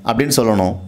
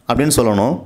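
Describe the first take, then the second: The two takes are said the same way.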